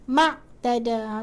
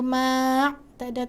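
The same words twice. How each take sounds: First: The vowel after the m is kept short. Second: The vowel after the m is held long. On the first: The speaker calls it right. "Huruf mat tak perlu panjang" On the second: The speaker calls it wrong. "tak perlu ma'tada"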